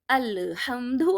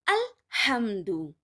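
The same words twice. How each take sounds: First: The l sound is said with a bounce. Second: The l sound is said without a bounce. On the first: The speaker calls it wrong. "they make bouncing sound in other letters as well" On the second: The speaker calls it right. "Lam is not from Kalkala letters, so we must say alhamdu"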